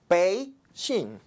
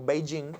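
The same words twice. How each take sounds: First: The first syllable rises, the second falls. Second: The pitch has no clear rise and fall. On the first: "La primera parte sube, la segunda parte baja" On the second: "lo que nosotros vemos como Beijing"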